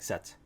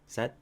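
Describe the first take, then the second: First: The final T is strong and clearly released. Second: The final T is soft and barely released. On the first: The speaker calls it wrong. "don't say this with a strong T like set" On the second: The speaker calls it right. "It's with a soft T"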